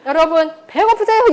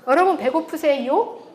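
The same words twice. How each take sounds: First: The pitch rise is not limited to the end. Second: Only the final syllable rises in pitch. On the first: "이렇게 안 하죠" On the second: "요만 올리잖아"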